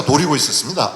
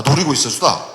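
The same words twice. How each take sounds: First: Said in the usual way. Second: Jeju dialect ending on 있었수다. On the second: Shown as a demonstration. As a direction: switch to Jeju speech for 있었수다. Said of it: "제주도 말로 하겠다".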